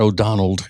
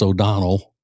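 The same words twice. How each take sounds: First: The name ends with an added d sound. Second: The name ends with no added d sound. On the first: The speaker calls it wrong. "It's not O'Donnell" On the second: The speaker calls it right. "No D on the end"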